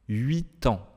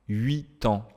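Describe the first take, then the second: Both takes have the same delivery.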